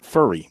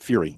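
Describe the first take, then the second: First: The vowel sounds like the one in 'fur'. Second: The vowel sounds like the one in 'few'. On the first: The speaker calls it right. "it's pronounced Coach Furry" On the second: The speaker calls it wrong. "not Fury"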